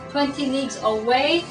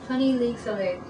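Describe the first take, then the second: First: The voice rises at the end like a question. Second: The voice falls at the end like a statement. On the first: He is asking a question. The speaker calls it right. "That's how you do the question mark" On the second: It is a plain statement. The speaker calls it wrong. "I didn't say that right"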